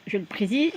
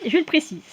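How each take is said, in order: First: Said in the usual way. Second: "je le précise" said higher, insisting; insistent repeat. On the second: Shown as a demonstration.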